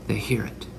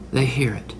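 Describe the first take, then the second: First: They hear it, whispered. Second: Said in the usual way. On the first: Shown as a demonstration. Preacher echoing his own words in a whisper. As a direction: breathe it out as an echo.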